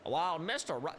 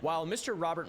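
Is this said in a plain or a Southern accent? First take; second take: Southern; plain. First: It is spoken in a Southern accent. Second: It is spoken in a plain accent.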